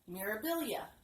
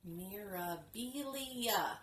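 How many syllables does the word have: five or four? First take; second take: four; five. First: The word is said with four syllables. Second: The word is said with five syllables. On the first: The speaker calls it right. "four syllables. Yeah. Much easier for me to say" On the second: The speaker calls it wrong. "I was making it a five syllable word instead of four syllable word"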